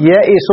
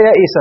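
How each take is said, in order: First: "يئس" ending in u, "yaa'isu"; corrected ending. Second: "يئس" ending in short a, "yaa'isa"; rejected ending. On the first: Teacher correcting students' vowel ending, careful pronunciation. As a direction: finish "يئس" on a clear u vowel. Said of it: "لا يئس". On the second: Teacher showing students what not to say, careful pronunciation. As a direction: finish "يئس" on an a vowel. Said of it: "تابعوا، لا يئس". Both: Shown as a demonstration.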